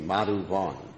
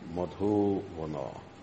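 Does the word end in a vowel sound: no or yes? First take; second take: no; yes. First: The word ends without a final vowel. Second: The word ends with a short final vowel. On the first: The speaker calls it wrong. "If it was long, it would be Madhuvan" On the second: The speaker calls it right. "But since it's a short A, it's Madhuvana"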